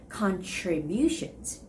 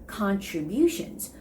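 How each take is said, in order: The two takes are said the same way.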